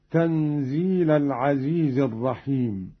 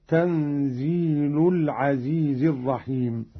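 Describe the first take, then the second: First: Said in the usual way. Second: تنزيل ending in u, "tanzeelu"; lam with damma. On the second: Shown as a demonstration. Teacher demonstrating Qalun's reading, تنزيل ending in damma. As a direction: put a clear u on the lam of تنزيل. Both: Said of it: "برفع اللام هكذا".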